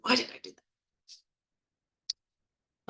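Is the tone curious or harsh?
harsh. It sounds harsh and self-blaming. The speaker is shaming themselves. The speaker calls it wrong. "Rather than"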